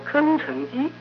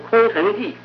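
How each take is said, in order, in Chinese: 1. 第一个音节读 keng。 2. 第一个音节读 kong。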